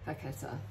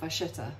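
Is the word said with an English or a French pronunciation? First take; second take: English; French. First: The word is said with an English pronunciation. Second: The word is said with a French pronunciation.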